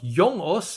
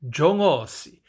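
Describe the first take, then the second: First: It begins with a y sound, no final vowel. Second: It begins with a j sound, final vowel added. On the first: This is the original Afrikaans form. "today it's not yongos" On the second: This is the borrowed Zulu form. "it is jongosi"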